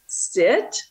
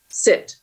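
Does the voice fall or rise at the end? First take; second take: rise; fall. First: The voice rises at the end. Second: The voice falls at the end. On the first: It is a question. The speaker calls it wrong. "your voice goes up a little bit at the end, that's a question" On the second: It is a command. The speaker calls it right. "It's not an ask. I'm giving you a command"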